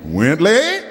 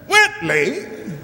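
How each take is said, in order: First: The pitch starts low and rises up. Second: The pitch starts high and falls down.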